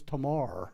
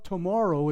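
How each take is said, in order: First: It is said in a Pittsburgh accent. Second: It is said in a standard accent.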